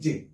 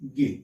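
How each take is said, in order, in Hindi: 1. यह j की ध्वनि से शुरू होता है। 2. यह g की ध्वनि से शुरू होता है। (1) "शुद्ध रूप, जिसको अपन क्या पढ़ते हैं, जे" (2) "प्रचलित तो जो रूप है"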